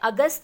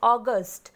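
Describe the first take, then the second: First: It is said the Hindi way, as agast. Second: It is said the English way, as August. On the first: The speaker calls it wrong. "अगस्त नहीं ... इन हिंदी अगस्त बोला जाता है" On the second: The speaker calls it right. "But in English it is read as August"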